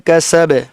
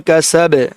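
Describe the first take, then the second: No difference in how they are said.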